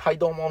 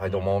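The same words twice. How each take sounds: First: It is said with high energy. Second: It is said with low energy.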